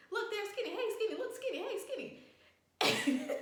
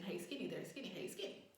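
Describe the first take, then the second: First: Very high, squeaky mock call; imitated excited calling. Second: Soft, low-key call; imitated low calling. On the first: Tripping, spots Skinny and calls to him, imitated excited calling. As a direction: hail a friend in a hammed-up high voice. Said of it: "I don't know if I said this out loud". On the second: Trying to wave at Skinny, imitated low calling. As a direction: keep the greeting under the breath, as retold. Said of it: "if I said it kinda low".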